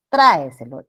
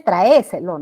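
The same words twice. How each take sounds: First: Tráeselo stressed loudly on TRÁ; correct stress. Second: Traéselo stressed loudly on the É; traéselo said as tra-É-se-lo; wrong stress. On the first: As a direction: punch the first syllable of tráeselo. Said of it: "Sino es tráeselo". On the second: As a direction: punch the E in traéselo. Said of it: "No es traéselo". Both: Shown as a demonstration.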